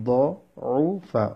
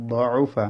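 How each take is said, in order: First: দউফা very slow, in three parts: দ, উ, ফা; syllable by syllable. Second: Said in the usual way. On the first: Shown as a demonstration. Teacher breaking down a hard word, syllable by syllable. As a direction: pull দউফা apart with pauses.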